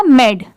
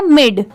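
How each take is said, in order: First: "मेड" with an e vowel; separate reading, med. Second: "मिड" with a short i vowel; word-ending mid. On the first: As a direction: say "मेड" with e, as read alone. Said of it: "अगर separately पढ़े तो मेड". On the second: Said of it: "इसकी pronunciation हो जाती है मिड". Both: Shown as a demonstration.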